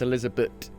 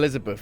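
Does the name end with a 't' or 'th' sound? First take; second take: t; th. First: The name ends with a plain 't' sound. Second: The name ends with a 'th' sound. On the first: The speaker calls it right. "It doesn't have an H at the end. That is how you pronounce it" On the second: The speaker calls it wrong. "Her name isn't"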